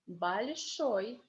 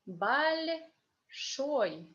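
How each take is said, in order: First: The word is said fast, at natural speed. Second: The word is said slowly and carefully. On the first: "the next time I will be reading fast like a normal Russian native speaker" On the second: "First time I will be reading slowly"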